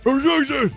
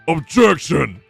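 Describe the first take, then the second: First: It is said in a higher pitch. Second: It is said in a deep, low pitch.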